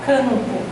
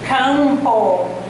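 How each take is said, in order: First: The vowel is nasalized with no clear m. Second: The m is clearly pronounced after the vowel. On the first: The speaker calls it wrong. "a gente fala campo" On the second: The speaker calls it right. "Aqui é campo"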